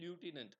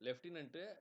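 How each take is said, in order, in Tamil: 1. முதல் எழுத்து 'loo' போல ஒலிக்கிறது. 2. முதல் எழுத்து 'left' போல ஒலிக்கிறது. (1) "அமெரிக்கன் இங்கிலீஷ்ல ... லியூட்டினன்ட் அப்டின்னு ப்ரொனன்ஸ் பண்ணுவாங்க" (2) "நம்ம லெப்டினன்ட்ன்னு சொல்லுவோம்"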